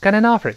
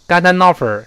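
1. 被连接的音很轻，几乎听不见。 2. 被连接的音要用力推出来。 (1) "一带过" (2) "不能用力，不能说got an offer got an offer，这不行啊"

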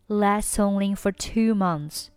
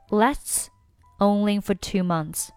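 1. 这些单词连读得很顺畅。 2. 这些单词是分开读的，没有连读。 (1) "这里呢是连读" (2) "你也可以选择不连"

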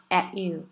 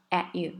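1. t 很弱，几乎被吞掉了。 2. t 很弱，几乎被吞掉了。

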